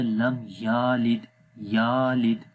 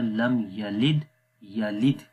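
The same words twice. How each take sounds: First: یالد with the ya drawn out long, slowly; wrongly lengthened. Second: یلد with a short, clipped یَ; لم یلد with no lengthening; correct short ya. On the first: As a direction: stretch the ya in یالد. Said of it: "اس کو آپ نے پڑھ دیا". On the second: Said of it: "یہ اصل لفظ ہے". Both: Shown as a demonstration.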